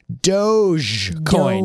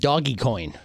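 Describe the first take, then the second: First: The g is soft, sounding like j. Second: The g is hard, as in dog. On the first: The speaker calls it right. "the way you're supposed to pronounce it. ... with a soft J" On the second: The speaker calls it wrong. "A lot of people were saying doggy coin"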